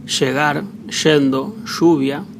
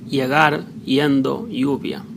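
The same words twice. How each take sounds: First: "Llegar, yendo, lluvia" with LL and Y said as SH. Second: "llegar, yendo, lluvia" with LL and Y said as an English Y. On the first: Spanish teacher showing Uruguay and Argentina accent, "Llegar, yendo, lluvia" with SH. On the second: Spanish teacher showing Spain and Latin America accent, "llegar, yendo, lluvia" with Y. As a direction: start each of "llegar, yendo, lluvia" with a Y glide. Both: Shown as a demonstration. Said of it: "can be Y or Sh".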